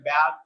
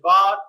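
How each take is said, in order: First: It is said with an American accent. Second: It is said with a British accent.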